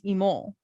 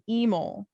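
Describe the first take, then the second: First: The stress is on the second syllable. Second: The stress is on the first syllable. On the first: This is how people from the hometown say it. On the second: This is how friends from the new place say it.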